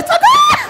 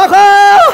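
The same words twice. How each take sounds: First: Shrill high scream for help; a comic shriek of pain. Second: Loud high cry for help; a comic yell for rescue; screamed for help. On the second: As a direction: yell it out over the pain. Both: Retold or imitated. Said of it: "era um grito que eu dava".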